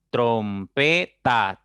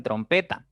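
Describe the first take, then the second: First: "trompeta" slow and loud, trom-pe-ta; split into syllables. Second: Said in the usual way. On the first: Shown as a demonstration. Teacher shows three syllables, "trompeta" broken up slowly and firmly. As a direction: punch out each drawn-out syllable of "trompeta". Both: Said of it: "tiene tres sílabas".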